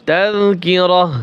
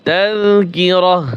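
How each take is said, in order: The two takes are said the same way.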